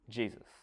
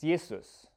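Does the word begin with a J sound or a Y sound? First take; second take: J sound; Y sound. First: The word begins with a J sound. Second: The word begins with a Y sound. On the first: "but then pronounce it like it was English" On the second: "in German, a J is pronounced as a Y. It's Jesus"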